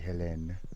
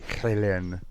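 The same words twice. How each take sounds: First: The name starts with an audible H sound. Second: The name starts without a full H sound. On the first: "Americans kind of pronounce H's" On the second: "if we were Brits"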